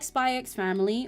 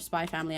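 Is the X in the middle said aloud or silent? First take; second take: aloud; silent. First: The X in the middle is said aloud. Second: The X in the middle is left silent. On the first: The speaker calls it wrong. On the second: The speaker calls it right.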